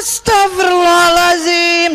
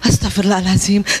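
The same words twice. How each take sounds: First: It is said in a harsh, angry way. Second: It is said in a sweet, gentle way.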